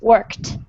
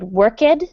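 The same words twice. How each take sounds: First: The word is said with one syllable. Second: The word is said with two syllables. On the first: The speaker calls it right. "just one syllable... add this final sound, t" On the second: The speaker calls it wrong. "you said worked, and it's actually just one syllable"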